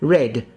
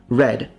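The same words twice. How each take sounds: First: The vowel is closed. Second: The vowel is open. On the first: "sometimes these are closed into" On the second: "these are open"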